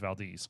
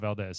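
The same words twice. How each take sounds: First: It is said the way locals say it. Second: It is said the way outsiders say it. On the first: The speaker calls it right. "You got to say it like a local" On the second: The speaker calls it wrong. "It's not Valdez"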